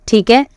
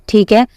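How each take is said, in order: No difference in how they are said.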